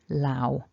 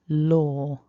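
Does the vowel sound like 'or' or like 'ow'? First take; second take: ow; or. First: The vowel is a gliding 'ow' sound. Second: The vowel is a long rounded 'or' sound. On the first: The speaker calls it wrong. "the kind of mispronunciation I hear is people saying things like lao with an ow" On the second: The speaker calls it right. "a long single vowel sound, or"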